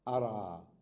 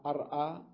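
First: "أرى" with no glottal stop, long final aa; hamza dropped. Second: "أرأى" with a glottal stop after the r; original form with hamza. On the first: Teacher showing the present tense, "أرى" without hamza. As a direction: glide from r straight into the vowel of "أرى". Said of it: "حذفت الهمزة". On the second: Teacher showing the form not said, hamza kept in "أرأى". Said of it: "ما قلت أرأى". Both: Shown as a demonstration.

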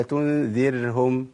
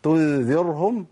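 First: "تنذرهم" drawn out with a thin, light ر. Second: "تنذرهم" drawn out with a thick, dark ر; heavy ر. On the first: Teacher offering the correct take, slow light ر in "تنذرهم". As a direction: say "تنذرهم" slowly, ر kept light after the kasra. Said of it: "الراء المرققة". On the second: Teacher contrasting wrong with right, slow heavy ر in "تنذرهم". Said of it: "أنا فخمت الراء المرققة". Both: Shown as a demonstration.

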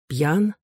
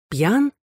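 First: Puzzled inward ПЬЯН, restrained; questioning. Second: ПЬЯН pitched high, rising; doubting ПЬЯН lifted sharply upward; insistent questioning. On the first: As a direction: ask ПЬЯН at usual pitch, lifting at the end. Question knocking in his head. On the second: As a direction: ask ПЬЯН in a higher, wondering voice. Same question repeated, more insistent. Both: A narrator's reading.

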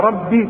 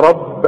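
First: «ربي» بياء ممدودة عند الوقف; قف على «ربي» بياء طويلة; إثبات الياء. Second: «رب» بباء ساكنة مشددة; اقفل «رب» على الباء مع قلقلة; وقف بدون ياء. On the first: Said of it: "إذا كانت فيها ياء". («ربي» بكسرة مشبعة ممدودة) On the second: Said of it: "إذا كانت بدون ياء". («رب» دون أي ياء) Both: Shown as a demonstration.

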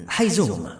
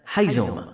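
First: Higher-pitched, mildly eager call; a touch of eagerness, pitched up. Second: Understated call at an everyday pitch; restrained call, not raised; repeated call. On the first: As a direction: call out the name with longing. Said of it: "وناداه متلهفا". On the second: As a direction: call the name in an even, contained way. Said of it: "وكرر النداء". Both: A narrator's reading.

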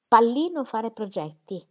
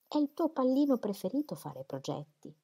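First: Louder, slower, pallino stressed in disbelief; indignant echo. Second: Said in the usual way. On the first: A narrator's reading. Dorothea repeating Celia's word pallino, louder and offended. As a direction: throw the word back, offended.

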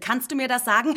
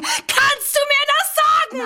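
First: Said in the usual way. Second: Sehr hoch, laut, gedehnt; hysterischer Aufschrei. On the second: Acted. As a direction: die Frage kreischen. Hysterischer Ausbruch. (gedehnter hoher Schrei)

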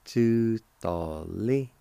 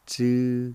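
First: Tutali stretched out syllable by syllable; Cherokee word, slowed right down. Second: Tutali, stressed and said loud; a crisp teaching model of Tutali; Cherokee word for kidneys. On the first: Teacher slowly sounds out Tutali for learners. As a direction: draw out each sound of Tutali. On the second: Teacher calls out Tutali for learners to copy. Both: Shown as a demonstration. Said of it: "it's pronounced like this".

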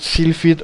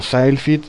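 First: "Sylphid" with a short i, "SIL-fid"; first pronunciation guess. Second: "Sylphid" with an eye sound, "SAIL-fid"; alternative pronunciation guess. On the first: Host unsure of the game's name, tries "Sylphid" as SIL-fid. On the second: Host unsure of the game's name, offers "Sylphid" as SAIL-fid. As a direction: say "Sylphid" as SYLE-fid, rhyming with "mile". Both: Shown as a demonstration. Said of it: "no sé cómo se pronuncia".

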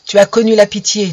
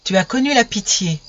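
First: A touch louder, stern and accusing; a hint of a king casting out his son; stern condemnation. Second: A radiant angel comforting gently; gentle angel. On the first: The king condemns his son, stern and louder. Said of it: "me dit-il". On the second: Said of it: "me dit". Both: A narrator's reading.

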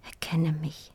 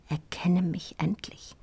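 First: Very soft whisper, pleading; silent plea. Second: Insistent whispered plea. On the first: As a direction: beg without a sound. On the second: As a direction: whisper rising on endlich. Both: Acted. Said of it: "schrie mein Blick".

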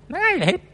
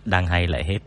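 First: The same words jumped way up high in a squeak; mock squeaky whine. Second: Said in the usual way. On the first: Streamer mimicking a disappointed listener in a squeaky whine. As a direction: squeal it like a sulky fan.

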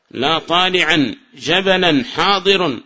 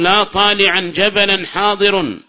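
First: Slow, even repeat of the example; slow and steady repeat; slower repeat. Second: Slow, measured example; slow teacher's reading; slow recital. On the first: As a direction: say it again slowly for students. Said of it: "repeats example slower". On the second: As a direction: spell the example out slowly. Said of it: "recites example slowly". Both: Shown as a demonstration.

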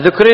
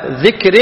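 First: ذكر said with u, dhukr; damma on ذ. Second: ذكر said with i, dhikr, slowly; kasra on ذ. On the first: (ذكر بضم الذال) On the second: (ذكر بكسر الذال) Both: Shown as a demonstration. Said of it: "يعني بكسر الذال".

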